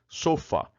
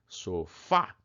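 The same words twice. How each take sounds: First: The stress is on the first syllable. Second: The stress is on the last syllable. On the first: This is the reading without the written accent. "Se eu não acentuasse sofá, como é que eu teria que ler sofá?" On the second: This is the reading with the written accent. "O Fá é o forte"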